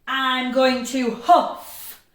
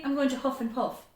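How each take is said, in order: First: Loud, slow demo, holding the f in huff; long f. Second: Too fast. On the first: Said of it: "you say it a little bit longer". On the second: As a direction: huff and puff rattled off quickly. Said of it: "It's too fast". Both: Shown as a demonstration.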